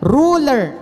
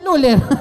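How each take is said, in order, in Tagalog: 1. Nagsisimula ang salita sa tunog na R. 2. Nagsisimula ang salita sa tunog na L.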